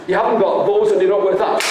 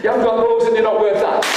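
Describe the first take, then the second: First: Fast mocking rattle. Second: Chanted, rattle it off quickly; fast chanted mock. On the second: Chanted, father taunting his son, fast. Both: Shown as a demonstration. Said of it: "Wait, wait".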